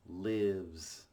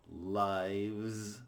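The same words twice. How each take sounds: First: It rhymes with gives, with a short vowel. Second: It rhymes with knives, with a long vowel. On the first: It means someone dwells somewhere. "But this is a verb" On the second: It refers to more than one life. "Think about this as a noun"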